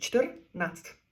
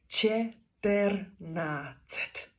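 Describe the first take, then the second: First: The word is said in two syllables. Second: The word is said with extra syllables. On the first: The speaker calls it right. "А чех скаже два склади" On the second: The speaker calls it wrong. "Українець тут каже деколи три склади, а деколи навіть у нього виходить чотири"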